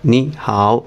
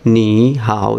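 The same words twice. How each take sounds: First: The first syllable has a rising tone. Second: Both syllables have a low dipping tone. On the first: "এই নিটা সেকেন্ড টোনে উচ্চারিত হবে" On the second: "দুইটাই third tone"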